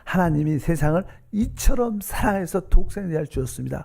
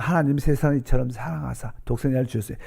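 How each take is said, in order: First: It is read slowly with heartfelt, prayerful feeling. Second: It is read straight through, without feeling.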